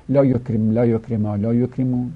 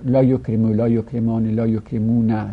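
First: لا یکرم cut on the final m, la yokrem; jussive endings. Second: لا یکرمو with a final "u", la yokremu; negative indicative endings. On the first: Teacher demonstrating prohibition to students, لا یکرم with vowelless final m. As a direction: say لا یکرما، لا یکرمو without any final n. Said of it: "لای آخرش جزم داره". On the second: Teacher reciting negation to students, full endings as in لا یکرمو. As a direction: keep the n endings in لا یکرمان، لا یکرمونا. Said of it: "نفی هم چهارده صیغه داره که لای نافیه روشه". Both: Shown as a demonstration.

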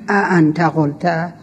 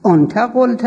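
First: ا انت قلت with a drawn-out glottal a before انت, slow; wrong glottal form. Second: آنت قلت with long open o, higher; آنت starting on long ɔ, no glottal stop; softened form. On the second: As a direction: say آنت قلت as ont ægolt. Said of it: "بگن آنت قلت". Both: Shown as a demonstration.

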